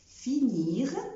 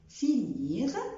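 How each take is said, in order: The two takes are said the same way.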